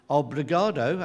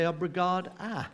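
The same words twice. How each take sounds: First: "Obrigado" ending on an OH sound. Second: "obrigada" ending on an AH sound. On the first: Host shows the usual thank you, "Obrigado" ending in OH. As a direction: say "Obrigado" with a final O. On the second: Host shows the female form, "obrigada" ending in AH. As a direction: say "obrigada" with a final A for O. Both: Shown as a demonstration. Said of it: "You use an A instead of an O".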